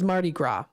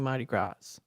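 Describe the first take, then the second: First: The name is not pronounced as spelled. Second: The name is pronounced just as spelled. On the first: The speaker calls it right. "oh, it is Mardi Gras" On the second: The speaker calls it wrong. "I pronounce it how I see it"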